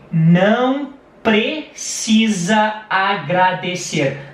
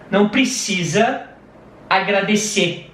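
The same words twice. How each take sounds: First: It is said slowly and carefully. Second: It is said at natural conversational speed.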